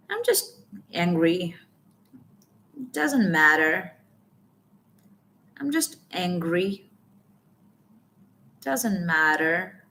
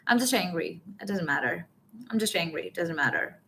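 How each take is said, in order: First: Slow, with angry and matter set apart by pauses; stress on angry and matter. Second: Said in the usual way. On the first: Shown as a demonstration. Coach shows learners the second version, stressing angry and matter. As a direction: weigh down angry, then matter. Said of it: "listen to the second thing that I'm gonna say". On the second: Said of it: "The first one".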